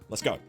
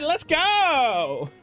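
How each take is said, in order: First: It sounds firm and purposeful, not bubbly. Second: It sounds bubbly and high-energy, like a valley girl. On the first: The speaker wants to get the task done. The speaker calls it right. "wanting to get the thing done" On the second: The speaker is excitable and shallow. The speaker calls it wrong. "high energy in your voice"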